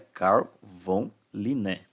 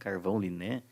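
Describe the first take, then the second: First: 'Carl' and 'von' are said as separate words. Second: 'Carl von' merges into one word like 'carvão'. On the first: The speaker calls it right. "Não, é Carl von Linné" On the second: The speaker calls it wrong. "Muitos alunos falam carvão"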